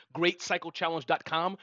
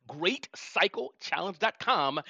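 First: Said in the usual way. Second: Spelled out slowly, word by word; slow, clear repeat. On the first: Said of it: "you were breaking up, David, so I'm gonna have to say that again". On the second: Shown as a demonstration. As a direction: say "Great cycle challenge dot com" slowly for a bad line. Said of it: "so I'm gonna have to say that again".

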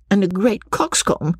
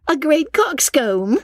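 First: High voice, falling to a close; Lucy's high-pitched verdict, ending on a fall; Lucy, dismissive. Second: Very high, slow, rising echo; Miss Steele's echoing question. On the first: Acted. Lucy's remark, later echoed higher. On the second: A narrator's reading. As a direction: squeal it back as a drawn-out question. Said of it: "repeated Miss Steele".

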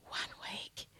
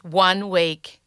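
First: One week whispered, breathy and hushed. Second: Said in the usual way. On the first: Shown as a demonstration.

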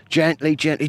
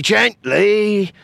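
First: Said in the usual way. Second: Sudden high, loud warning; alarm shout. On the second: Acted. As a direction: snap it out in alarm. Alarm as mine is prodded.

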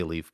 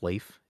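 First: Leif said just like "leaf"; long-E pronunciation. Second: Leif said to rhyme with safe; long-A pronunciation. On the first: Host defending the usual way they say the name, Leif as "leef". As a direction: say Leif with an "ee" vowel. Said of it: "I always say Leif". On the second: Host checking how the character's name is pronounced, Leif as "layf". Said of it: "Is it pronounced Leif?". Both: Shown as a demonstration.

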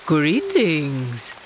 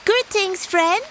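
First: Lower, slow leopard greeting; a touch of a big cat's low welcome; lightly voiced leopard. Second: High, sweet little tortoise voice; high polite tortoise. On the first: Leopard answers door. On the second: Acted. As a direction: greet the door in a high small voice. Tortoise greets at door.

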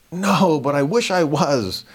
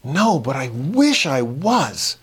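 First: Slow, mock-earnest reply; deadpan John. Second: Deadpan, slow and even; straight face. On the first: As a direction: wish it with a straight face. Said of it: "turned to John and said". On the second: Retold or imitated. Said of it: "said with a total straight face".

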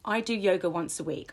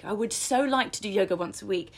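First: Matter-of-fact, settled statement; even, assured demo of a written affirmation; firm affirmation. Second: Slightly lifted, yearning demo; wishy-washy aspiration, leaning on "so"; wishful, not solid. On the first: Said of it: "I'm disciplined enough". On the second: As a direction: say it as a mere wish. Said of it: "It projects something that isn't quite solid". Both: Shown as a demonstration.

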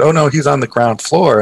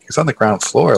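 First: Plain retold statement, falling at the end; casual informative reply; receptionist's matter-of-fact answer. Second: Same words turned into a rising question; can't believe what you just heard; mild mock disbelief, lifted at the end; incredulous echo. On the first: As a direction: tell him simply where his uncle is. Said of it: "my uncle, I said". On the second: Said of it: "And I'm like".

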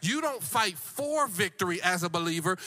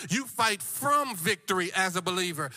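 First: FOR punched against "from"; preacher's contrast landing on "for"; stress on FOR. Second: FROM punched as the correction; preacher's contrast landing on "from"; stress on FROM. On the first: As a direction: lean hard on the word "for". Contrasts fighting for with from. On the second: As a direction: lean hard on the word "from". Contrasts fighting from with for. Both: Real, not acted.

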